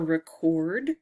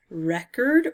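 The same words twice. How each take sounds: First: "record" stressed on second syllable, rih-KORD; verb pronunciation. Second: "record" stressed on first syllable, REK-erd; noun pronunciation. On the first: Player offers the other reading of the word, "record" as rih-KORD. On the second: Player reads out both readings of the word, "record" as REK-erd. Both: Shown as a demonstration. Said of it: "record or record".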